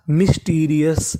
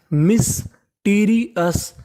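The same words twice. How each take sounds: First: Said in the usual way. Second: mysterious very slowly, split as मिस - teary - अस; syllable by syllable. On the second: Shown as a demonstration. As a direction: sound out mysterious part by part with gaps. (Mysterious को तोड़-तोड़कर बहुत धीरे) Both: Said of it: "तो meaning बनी".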